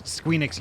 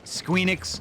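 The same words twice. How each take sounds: First: Said in the usual way. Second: Squeenix said high with a long final s; Squeenix drawn out. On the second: Shown as a demonstration. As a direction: stretch Squeenix, ending in a held sss.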